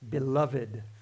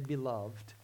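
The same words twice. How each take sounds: First: The final e is sounded, giving three syllables. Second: The final e is silent, giving two syllables. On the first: "I put that in the old style" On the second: "you don't have to pronounce it that way. You can just say beloved"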